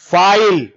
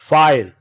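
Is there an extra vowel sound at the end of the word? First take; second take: yes; no. First: The word ends with an extra echoing vowel sound. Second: The word ends cleanly with no extra vowel. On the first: The speaker calls it wrong. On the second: The speaker calls it right.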